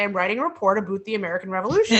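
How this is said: It is said in a strong Canadian accent. This is how the child actor actually said it. "She had a very severe Canadian accent. ... And she would say"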